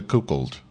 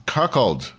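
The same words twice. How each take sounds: First: "cuckold" with the first vowel as COO; mispronounced cuckold. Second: "cuckold" with a short UH, as KUK-uld; corrected cuckold. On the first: Reader unsure of the word in the article, says "cuckold" as KOO-kuld. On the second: Reader trying the word for the audience, says "cuckold" as KUK-uld. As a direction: say "cuckold" with first vowel as in cup. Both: Real, not acted. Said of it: "Somebody tell me how to pronounce cuckold".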